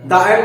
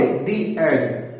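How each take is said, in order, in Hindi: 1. शब्द 'the' में छोटी 'uh' स्वर-ध्वनि होती है। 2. शब्द 'the' में लंबी 'ee' स्वर-ध्वनि होती है। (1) "द एंड नहीं पढ़ेंगे"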